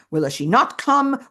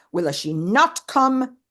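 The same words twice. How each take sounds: First: Higher, louder, stress on not; anxious question, not punched; tearful and angry. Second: Slow, higher, come drawn out; slow fretful repeat, come stressed; tearful and angry. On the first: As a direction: lean on not in anguish. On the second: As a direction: drag the question out in anguish. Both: Retold or imitated. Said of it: "Tearfully, but also angrily".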